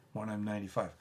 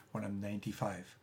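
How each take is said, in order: Both takes have the same delivery.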